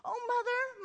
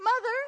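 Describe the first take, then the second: First: Much higher, eager cry of Mother; a boy flinging himself at his mother, calling Mother high and glad; Mother called out high with a falling finish; bursting out. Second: Much higher and much louder cry of Mother; Mother repeated, louder and high, overflowing; burst out. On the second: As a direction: call Mother out loud as if finally home. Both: Acted. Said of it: "he burst out".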